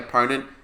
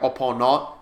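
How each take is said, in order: First: It is said in a plain English accent. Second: It is said in a thick French accent.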